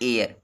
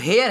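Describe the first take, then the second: First: The word starts with a vowel sound. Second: The word starts with an h sound. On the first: The speaker calls it right. "लेकिन इसको पढ़ेंगे एयर" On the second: The speaker calls it wrong. "यहाँ लिखा तो हेयर है"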